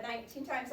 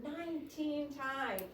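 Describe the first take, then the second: First: Said in the usual way. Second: "nineteen times" raised and drawn out; stress on nineteen times. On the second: Shown as a demonstration. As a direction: lean hard on "nineteen times". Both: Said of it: "I stress the word nineteen times".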